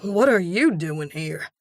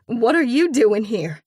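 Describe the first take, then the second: First: Startled man. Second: Loud high shocked question; shocked outburst, stress on you; startled demand. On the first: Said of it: "Jasper goes bug-eyed". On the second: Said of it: "I screech". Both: A narrator's reading.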